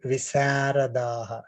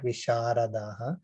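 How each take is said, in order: First: The middle consonant is between s and sh. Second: The middle consonant is a full sh sound. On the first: The speaker calls it right. "specifically mentioned like" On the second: The speaker calls it wrong.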